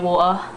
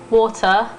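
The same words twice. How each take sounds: First: The middle T sound is dropped. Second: The middle T sound is clearly pronounced. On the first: This is how the speaker normally talks. "I usually go water, ... I tend to drop my T's" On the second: This is not how the speaker normally talks. "I don't actually say water like that normally"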